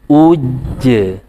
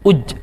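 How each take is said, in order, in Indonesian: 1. Bunyi j yang ganda ditahan lalu dilepas dengan pantulan. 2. Bunyi j dipotong pendek tanpa pantulan. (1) "ada porsi pantulannya" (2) "tidak uj, ij, aj. Nah, tidak uj. Nah, u-nya kurang ya, porsinya kurang jadinya"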